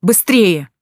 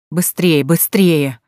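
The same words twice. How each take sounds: First: Louder, urgent cry; urgent shout. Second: Gasping out a shout; breathless shout. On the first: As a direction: hurry him out. Urging him out of water. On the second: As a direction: call out, short of breath. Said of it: "задыхаясь, прокричал Егор". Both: A narrator's reading.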